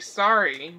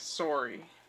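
First: Sorry is said with an American vowel. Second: Sorry is said with a British-style vowel. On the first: "how Americans traditionally say sorry" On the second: "that is apparently the proper English pronunciation of sorry"

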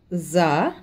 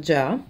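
First: It begins with a voiced 'z' sound. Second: It begins with a 'j' sound as in 'jam'. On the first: The speaker calls it right. "la sonora za" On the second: The speaker calls it wrong. "da molti indiani viene comunque pronunciata già"

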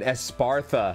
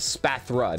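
First: The name is said with a 'Sparta'-like middle. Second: The name is said without a 'Sparta'-like middle. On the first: The speaker calls it wrong. "I always say that wrong" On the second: The speaker calls it right. "It's a Spathra, not Espartha"

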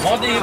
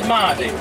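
First: The first vowel is a short a sound. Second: The first vowel is a long á sound. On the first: This is the form used today. "Aval vagy ával? Madé" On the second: This is the form used in the past. "vagy ával? ... De régen ával mondták"

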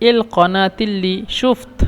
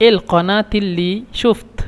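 Both takes have the same delivery.

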